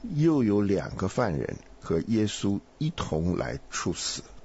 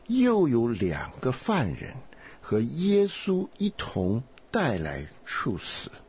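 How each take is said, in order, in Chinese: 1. 音高范围窄，比较克制。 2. 音高范围宽，比较夸张。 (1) "这是窄的啊" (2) "这是宽的"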